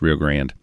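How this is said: It is said the way Texans say it.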